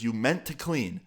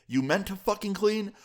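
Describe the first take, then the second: First: Slow, measured repeat of a weak excuse; disbelieving echo. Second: Much higher-pitched, mock-angry question; incredulous outrage. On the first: Retold or imitated. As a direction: imitate a dad holding back anger. Dad echoes son's excuse. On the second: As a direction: imitate a dad escalating in disbelief. Dad repeats it, escalating.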